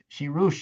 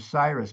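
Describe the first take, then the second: First: The name is said closer to its Persian original. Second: The name is said the usual English way. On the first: "I think is closer to the original Zoroastrian" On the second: "I'm sort of giving it the Western, you know, version"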